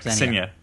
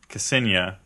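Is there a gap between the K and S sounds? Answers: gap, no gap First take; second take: no gap; gap. First: The K and S run together without a gap. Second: There is a clear gap between K and S. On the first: The speaker calls it right. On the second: The speaker calls it wrong.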